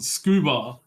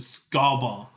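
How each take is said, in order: First: The first vowel is a long 'oo' sound. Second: The first vowel is a short 'uh' sound. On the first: The speaker calls it right. "You pronounce it scuba" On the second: The speaker calls it wrong. "it'd be scuba because the U is pronounced uh"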